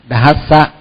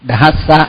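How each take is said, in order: The two takes are said the same way.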